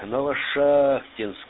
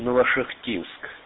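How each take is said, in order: First: The stress falls on the 'a' in 'шахт'. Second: The stress falls on a syllable other than 'шахт'. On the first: The speaker calls it right. "надо ударение делать на А" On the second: The speaker calls it wrong. "всегда я говорил Новошахтинск"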